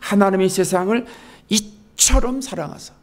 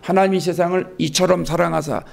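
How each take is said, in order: First: It is read with deep, emphatic feeling. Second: It is read flatly, without feeling.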